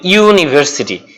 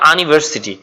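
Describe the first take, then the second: First: The word begins with a 'yoo' glide sound. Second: The word begins with a plain 'ah' vowel. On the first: The speaker calls it right. "আমি কি বলি" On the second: The speaker calls it wrong. "আমি কিন্তু বলি না"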